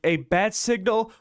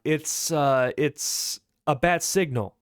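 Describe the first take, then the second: First: Higher, rising incredulous echo; amused disbelief. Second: Slow, halting, mildly sheepish answer; falter, then admit it with a falling end; hesitant admission. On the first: Deadpool scoffing at Bruce's bat signal, amused disbelief. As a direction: throw it back as a mocking question, no real laugh. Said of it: "Deadpool starts laughing". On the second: Bruce admitting the signal to Deadpool, hesitant. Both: Acted.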